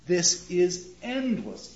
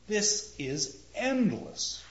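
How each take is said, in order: First: Slow, stretched phrase; slow, lingering read; drawn out. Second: Slow, stretched phrase; slow, lingering delivery; drawn out. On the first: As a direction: stretch endless out a second time. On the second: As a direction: stretch endless out long. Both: Shown as a demonstration. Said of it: "It's drawn out".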